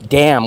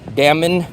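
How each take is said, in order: First: The word ends on m with no n sound. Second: The word ends with an audible extra n sound. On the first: The speaker calls it right. "The N is silent" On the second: The speaker calls it wrong. "Does anyone say damn? Damon? No, silent"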